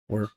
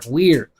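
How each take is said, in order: First: It is said quickly and reduced, sounds weakened. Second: It is said slowly and fully, each sound clear. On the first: The speaker calls it right. "Remember we talked about reductions" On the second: The speaker calls it wrong. "That's how a beginner would do it"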